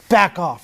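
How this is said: It is said firmly, with confidence. The other child will take it seriously. The speaker calls it right. "that's going to be effective when you have the right tonality"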